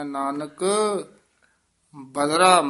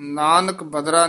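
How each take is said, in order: First: Nanak is said with an added emphatic yamak. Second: Nanak is said plainly, without added emphasis. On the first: The speaker calls it right. "ਨਾਨਕ ਪਦ ਤੇ ਯਮਕ ਲਾ ਕੇ ਉਚਾਰਨ ਕਰਨਾ" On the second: The speaker calls it wrong. "ਨਾਨਕ ਬਦਰਾ ਨੀ ਕਹਿ ਦੇਣਾ"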